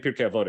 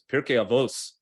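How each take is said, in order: First: It ends with a t sound, modern Hebrew style. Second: It ends with an s sound, Ashkenazi style.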